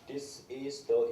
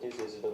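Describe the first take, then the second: First: The words are separated by small pauses. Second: The words are run together without breaks. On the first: Listeners can follow it comfortably. The speaker calls it right. "의도적으로 끊어서 이렇게 발음을 해줘야 돼요" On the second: Listeners can hardly understand it. The speaker calls it wrong. "이렇게 하면은 거의 여러분들이 못 알아들어요"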